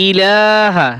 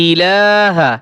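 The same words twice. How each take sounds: Both takes have the same delivery.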